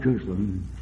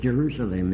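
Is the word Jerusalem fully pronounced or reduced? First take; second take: reduced; fully pronounced. First: Some syllables are reduced or slurred together. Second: Every syllable is given its full pronunciation. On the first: The speaker calls it wrong. "it's not Jerusalem" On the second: The speaker calls it right. "that word is Jerusalem"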